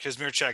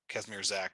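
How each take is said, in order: First: The surname is said with its Polish sounds. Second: The surname is said with simplified American sounds. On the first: "the proper Polish pronunciation" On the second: "the Americanized pronunciation"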